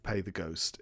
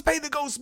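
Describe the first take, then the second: First: Much softer, lower eerie murmur; spooky hush. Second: High, pleading hammed-up question; desperate demand. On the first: Retold or imitated. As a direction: let it hang like a creepy omen. Spooky graffiti phrase. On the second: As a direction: demand the meaning frantically. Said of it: "What does".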